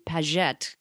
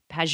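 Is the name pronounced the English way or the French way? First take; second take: French; English. First: The name is said with a French pronunciation. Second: The name is said with an English pronunciation. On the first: This is the feminine form used in France. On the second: This is the original form of the surname.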